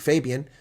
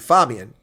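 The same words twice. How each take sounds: First: The name is said with American-style vowels. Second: The name is said with German-style phonetic vowels. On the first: This is how Americans say the name. The speaker calls it wrong. "mispronounce it like Americans do and call you Fabian" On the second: This is the original German and Latin form. The speaker calls it right. "it's pronounced phonetically, which would be Fabian"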